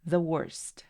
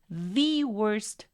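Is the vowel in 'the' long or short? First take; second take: short; long. First: The vowel in 'the' is short, like 'thuh'. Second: The vowel in 'the' is long, like 'thee'. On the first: Nothing is emphasized. "si no quieres enfatizar nada, entonces vas a pronunciarlo como the" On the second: The speaker is emphasizing the word. "estoy colocando un poquito más de tiempo a esa I. La estoy prolongando"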